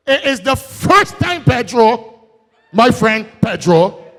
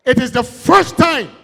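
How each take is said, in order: First: High, ringing repeat of it is the first time; say it loud. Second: Said in the usual way. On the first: Shown as a demonstration. Speaker repeating the claim to the crowd, loud and high. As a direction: proclaim it out to the whole hall. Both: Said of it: "and I can say that loud again".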